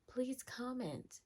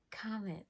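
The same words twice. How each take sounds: First: Slow, softer whispered plea; pleading whisper. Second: Said in the usual way. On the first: Acted. Begging her viewers to comment, in a slow pleading whisper. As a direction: whisper it like a desperate little beg.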